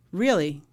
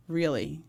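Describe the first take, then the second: First: 1 shocked reply. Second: 1 disbelieving repeat. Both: Retold or imitated. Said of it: "I went".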